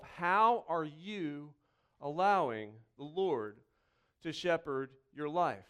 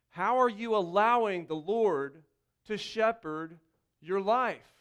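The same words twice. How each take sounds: First: "How are you allowing the Lord to shepherd your life?" slowed right down and lower; slow, probing repeat. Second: Said in the usual way. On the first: Shown as a demonstration. Pastor asks the congregation again, slowly and gently. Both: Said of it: "It's a simple question again".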